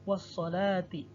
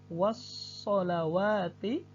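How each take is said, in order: First: No extra wa syllable is pronounced. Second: An extra wa syllable is pronounced. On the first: The speaker calls it right. "namun yang dibaca adalah alifnya menjadi" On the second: The speaker calls it wrong. "ada wawunya ini"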